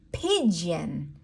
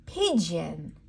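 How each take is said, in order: Both takes have the same delivery.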